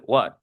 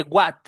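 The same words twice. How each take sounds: First: "what" with a short schwa. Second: "what" with a full Spanish a; the wrong, Spanish-style "what". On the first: Teacher giving the right "what". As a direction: relax the vowel in "what". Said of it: "se dice what". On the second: Teacher showing what not to say. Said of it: "No se dice what". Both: Shown as a demonstration.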